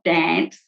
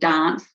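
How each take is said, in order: First: It is said in a non-South Australian accent. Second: It is said in a South Australian accent. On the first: "not dance" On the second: "South Australian dance"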